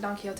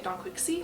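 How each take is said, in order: First: Quixote is pronounced in a Spanish way. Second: Quixote is pronounced in an anglicized way. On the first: The speaker calls it right. "she definitely pronounced it" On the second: The speaker calls it wrong. "I was pronouncing Don Quixote wrong"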